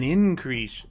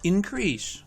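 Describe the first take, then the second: First: The stress is on the first syllable. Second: The stress is on the second syllable. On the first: It is used as a noun. "Two-syllable nouns are stressed on the first syllable" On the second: It is used as a verb. "Two-syllable verbs are stressed on the second syllable"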